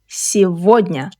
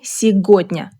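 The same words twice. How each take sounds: First: The middle consonant is a v sound. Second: The middle consonant is a hard g sound. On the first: The speaker calls it right. "g sounds like v. ... say" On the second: The speaker calls it wrong. "Don't say"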